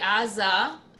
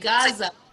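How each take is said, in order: First: The word starts with a vowel sound. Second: The word starts with a hard g sound. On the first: This is the Hebrew form of the name. "in Hebrew you would say Aza" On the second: This is the English form of the name. "in English you say Gaza"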